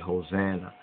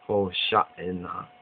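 First: The word is said in its English form. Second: The word is said in its Hebrew form. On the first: The speaker calls it wrong. "they have Hosanna in the English way" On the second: The speaker calls it right. "the more correct Hebraic way is Hosha'inah"

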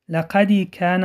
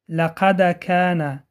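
First: A short i vowel follows the d. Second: The d is stopped with no vowel after it. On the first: The speaker calls it wrong. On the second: The speaker calls it right.

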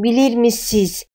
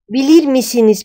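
First: The phrase is said in its everyday spoken form. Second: The phrase is read out as it is spelled. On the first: "но произносим как" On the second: "пишем"

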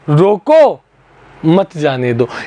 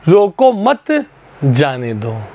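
First: The pause comes after 'roko'. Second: The pause comes after 'mat'.

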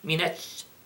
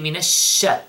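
First: The sh sound is short without spreading. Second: The sh sound is spread out with airflow. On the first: The speaker calls it wrong. "We don't say minash" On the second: The speaker calls it right. "the sound of it spread in the air. So we say minash sh"

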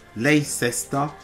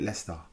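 First: Every part of the name is sounded out. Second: Some sounds in the middle are dropped. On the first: The speaker calls it wrong. "Is it not Leicester? But they don't pronounce it Leicester" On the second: The speaker calls it right. "They call it Leicester. Where did the first E, I, and C go to?"

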